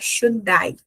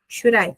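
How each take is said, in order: First: The d is a clear, full d sound. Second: The d is a quick tap, like a light r. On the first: "Na pronúncia britânica isso não acontece, a pessoa vai falar" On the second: "na pronúncia americana fica should I"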